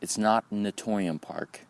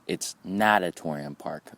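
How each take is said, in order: First: Natorium said without the extra syllable; Natorium, clipped to four syllables; mispronounced. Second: Natatorium said slowly, na-ta-TO-ri-um; correct pronunciation. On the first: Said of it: "I have been mispronouncing the name". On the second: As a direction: Natatorium with every syllable spelled out. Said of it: "is how you pronounce it". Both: Shown as a demonstration.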